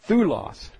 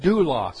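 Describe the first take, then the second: First: The word begins with a 'th' sound. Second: The word begins with a 'd' sound. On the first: This is the modern pronunciation. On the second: This is the older pronunciation.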